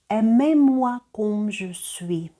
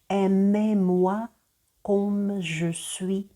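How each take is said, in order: First: The phrase is said at normal speed. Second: The phrase is said somewhat more slowly.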